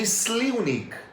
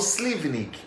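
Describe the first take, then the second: First: The v is pronounced as a u sound. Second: The v is pronounced as a v sound. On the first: This is how it is said in Slovenia. "o V tem som de U. Eles chamam de Slivnik" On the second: This is how it is said in Brazil. "aqui no Brasil eu falo Slivnik, porque o V é, é V"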